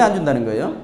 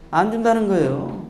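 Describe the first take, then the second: First: Lecturer posing it to the class, 안 준다는 거예요 rising at the end; questioning tone. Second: 안 준다는 거예요 settling into a long fall; answering statement. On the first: Lecturer asking whether the third child gets nothing, questioning. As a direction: ask 안 준다는 거예요 with a lift on the last syllable. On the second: Lecturer answering his own question about 안 준다는 거예요, falling statement. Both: Shown as a demonstration.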